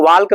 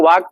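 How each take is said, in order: First: वाल्क said as "waalk", L sounded; L wrongly pronounced. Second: वाक said as "waak", no L; silent L. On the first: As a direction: mispronounce walk as वाल्क, with a clear L. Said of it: "इसको वाल्क नहीं पढ़ेंगे". (वाल्क में L का गलत उच्चारण) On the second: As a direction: say walk as वाक, dropping the L. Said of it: "एल silent होगा". (वाक में L silent) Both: Shown as a demonstration.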